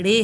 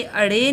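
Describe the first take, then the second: First: "ड़े" starting straight on the flapped r; correct letter name. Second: "अड़े" with an extra "a" before the flap; wrong letter name. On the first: Teacher correcting pupils' letter name, clean "ड़े" without opening vowel. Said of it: "ये ड़े है". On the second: Teacher showing pupils a mistake, mispronounced "अड़े" with added vowel. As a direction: say "अड़े" with a stray opening vowel. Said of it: "ये अड़े नहीं है". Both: Shown as a demonstration.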